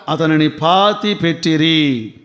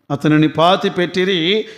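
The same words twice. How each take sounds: First: Slow, falling tune with weight on పాతి; a slow, grave line ending in a fall; slow solemn reading. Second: పాతి lifted, with the line rising at the end; repeated with rising tune. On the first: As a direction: read it slowly, letting పాతి sink downward. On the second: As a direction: echo the line, this time lifting it up. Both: Shown as a demonstration.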